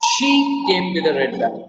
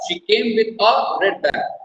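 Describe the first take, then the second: First: The stress falls on the word she. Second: The stress falls on the word a. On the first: Nobody else came with it. "सबसे पहले जो first word है शी, उस पर stress डालेंगे।" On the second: There was only one bag. "A red bag, not two, not three, one"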